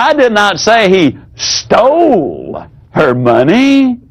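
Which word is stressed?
stole. The stress falls on the word stole.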